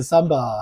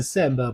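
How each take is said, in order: First: "Samba" with an open "ah" first vowel; mispronounced "Samba", broad "ah" instead of "a" as in cat; wrong vowel. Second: Said in the usual way. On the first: Shown as a demonstration. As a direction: say "Samba" as SAHM-bah. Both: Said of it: "不念Samba".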